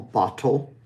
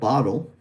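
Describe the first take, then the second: First: The middle T is fully and crisply released. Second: The middle T is a quick tap like D. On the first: It sounds formal. "very, very um, formal" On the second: It is the American English form. "It kind of sounds like a D, but it's actually the flapped T"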